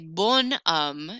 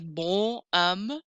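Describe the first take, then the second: First: The N is pronounced and linked into homme. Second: The N is not linked into homme. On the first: The speaker calls it right. "I'm gonna pronounce that N a little bit more" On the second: The speaker calls it wrong. "I'm not gonna say"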